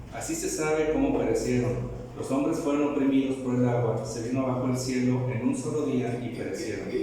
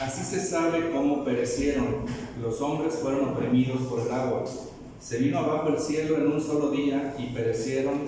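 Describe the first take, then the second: The two takes are said the same way.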